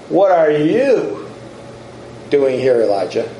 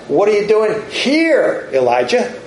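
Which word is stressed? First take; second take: you; here. First: The stress is on "you". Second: The stress is on "here".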